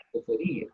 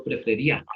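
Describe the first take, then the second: First: Prefería with the í stressed and separate from the a; softer prefería, still leaning on the í. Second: Prefería with the í unstressed, gliding into the a; wrong stress. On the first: Teacher giving students the right form, prefería with stressed í. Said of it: "no prefería, prefería". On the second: Teacher contrasting for students, prefería wrongly said with a diphthong. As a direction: say prefería wrongly, "ía" as one syllable "ya". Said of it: "no prefería". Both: Shown as a demonstration.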